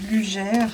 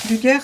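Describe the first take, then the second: First: The name is pronounced the French way. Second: The name is pronounced the German way. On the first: "En français, ça se prononcerait Luger" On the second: "c'est le nom euh, allemand"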